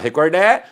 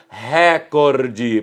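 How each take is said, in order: First: The stress is on the last syllable. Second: The stress is on the first syllable. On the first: "ninguém vai falar recordé" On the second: "se houvesse o acento agudo, a pronúncia seria recorde"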